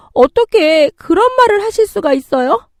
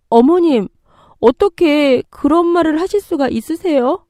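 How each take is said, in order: First: Very high, loud indignant question; outraged. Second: High-pitched, hurt disbelief; shocked protest. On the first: Daughter-in-law boiling over at mother-in-law's demand, outraged. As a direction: fire back in disbelief and fury. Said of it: "참을 수 없는 분노가 치미는". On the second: Daughter-in-law reacting to mother-in-law's cruel words, shocked. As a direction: appeal to her in dismay, voice raised in pitch. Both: Acted.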